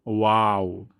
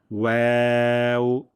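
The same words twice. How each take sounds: First: ওয়াও as broad "wau"; wrong waw. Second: Long ওয়াও as "weu", rounded then spread; correct waw. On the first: Teacher showing a common mistake, broad "wau" ওয়াও. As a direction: open aa inside ওয়াও. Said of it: "অনেকে ভুলটি করেন". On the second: Teacher introducing the letter, long thin "weu" ওয়াও. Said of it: "দুই ঠোঁট গোল করে". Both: Shown as a demonstration.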